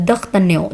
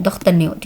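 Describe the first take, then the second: The two takes are said the same way.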